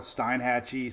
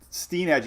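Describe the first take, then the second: First: The first syllable does not have an 'ee' vowel. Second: The first syllable has a long 'ee' vowel. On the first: The speaker calls it wrong. "I kept calling it Steinhatchee" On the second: The speaker calls it right. "I wrote S T E E E E E E E E N. I was like, say it right"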